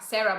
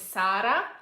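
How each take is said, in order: First: The name is said with an English pronunciation. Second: The name is said with an Italian pronunciation. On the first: "It's Sarah" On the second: "we pronounce in Italy, we pronounce it differently"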